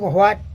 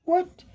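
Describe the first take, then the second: First: It begins with a breathy hw sound. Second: It begins with a plain w sound. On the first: The speaker calls it wrong. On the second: The speaker calls it right.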